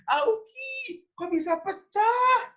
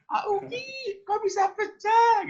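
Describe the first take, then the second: First: Very high put-on mother's cry; shrill mother voice. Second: Very high, loud put-on mother's cry; flustered mother. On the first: Parent hearing a plate break, crying out very high. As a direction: squeak it like a flustered mum. Acting the parent's reaction again. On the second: Mother scolding the child over the broken plate, very high and loud. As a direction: squeal it like a startled mum. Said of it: "itu kayaknya ekspresinya".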